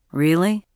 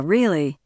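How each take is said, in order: First: "Really" with a rising, questioning tune. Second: "really" with a falling, settled tune; confirming. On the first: Son questioning his own inner voice, questioning. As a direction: ask "Really" as a doubt, lifting the end. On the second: Inner voice answering the doubting son, confirming. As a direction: answer with "really", dropping firmly at the end. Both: A narrator's reading.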